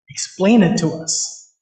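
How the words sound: It is said in a challenging, questioning tone. Demanding that the teaching be justified. "It's a questioning tone"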